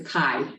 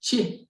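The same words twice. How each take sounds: First: It begins with a k sound. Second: It begins with a ch sound. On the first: The speaker calls it right. "It's a K sound" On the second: The speaker calls it wrong. "but chick"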